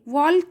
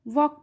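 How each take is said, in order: First: The L sound is pronounced in the word. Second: The L sound is left out of the word. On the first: The speaker calls it wrong. "वॉल्क नहीं पढ़ेंगे" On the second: The speaker calls it right. "एल का sound नहीं लेंगे क्योंकि एल ये silent है"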